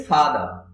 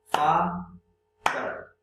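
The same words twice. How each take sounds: First: Said in the usual way. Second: father split in two, a clear pause between the syllables. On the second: Shown as a demonstration. Teacher showing two syllables, father said syllable by syllable. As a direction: draw father out as two separate beats. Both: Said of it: "father में दो syllable है".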